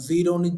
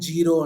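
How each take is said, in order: First: The word begins with a buzzing z sound. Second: The word begins with a j sound.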